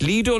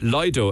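First: The first syllable sounds like 'lee'. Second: The first syllable sounds like 'lie'. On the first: "as in L-E-E-D-O" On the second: "as in L-Y-D-O"

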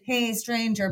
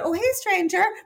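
First: It sounds pointed and loaded. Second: It sounds casual and breezy.

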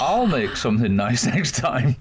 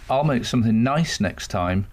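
First: The stress falls on the word I'll. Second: The stress falls on the word nice. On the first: The speaker calls it right. "But what he meant was" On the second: The speaker calls it wrong. "He just got his emphasis all wrong"

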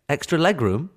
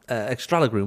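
First: It is said as two plain English words. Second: It is said as one Spanish-sounding word. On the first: It names extra space for the legs. The speaker calls it right. "That's not a Spanish word" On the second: The speaker thought it was a foreign word. The speaker calls it wrong. "Totally thought it was a Spanish word"

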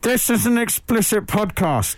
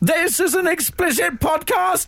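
First: It sounds like a 1950s American film announcer. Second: It sounds like a harsh, robotic Dalek voice.

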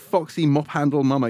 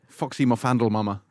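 First: The middle word is said as 'mop handle'. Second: The middle word runs together as 'mafandel'. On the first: The speaker calls it right. "you're almost certainly right" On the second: The speaker calls it wrong. "That's how I'd always pronounce it"

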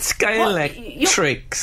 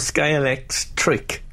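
First: The 'x' sound comes at the word's end. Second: The 'x' sound comes before 'trick'. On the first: "Where's the X?" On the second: "Is it the beginning of the"

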